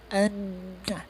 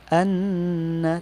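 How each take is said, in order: First: The nose is pinched, so the nasal sound is blocked. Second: The nasal sound flows freely through the nose. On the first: "kalau kita tutup anna, nggak mau keluar dah" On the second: "kalau kita nggak ditutup hidungnya biasa aja"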